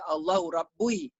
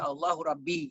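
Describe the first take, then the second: First: The last word ends in an 'oo-ee' sound. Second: The last word ends in a plain 'ee' sound. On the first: The speaker calls it wrong. "tak boleh baca" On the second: The speaker calls it right. "Dia baca"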